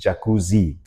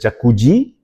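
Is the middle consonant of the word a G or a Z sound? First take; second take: Z; G. First: The middle consonant sounds like a Z. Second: The middle consonant sounds like a G. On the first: The speaker calls it right. "but with a Z" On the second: The speaker calls it wrong. "not with a G"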